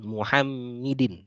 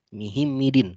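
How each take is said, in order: First: The vowels run u, a, i, i. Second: Every vowel is i. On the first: "bukan Muhammidin" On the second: "bukan Mihimidin"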